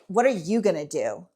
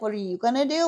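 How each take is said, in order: First: It is said in a harsh, confrontational tone. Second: It is said in a soft, affectionate tone. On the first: The question is a challenge. The speaker calls it wrong. "if I was like saying it in a way of like" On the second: The question is asked with caring interest. The speaker calls it right. "Like that's adorable"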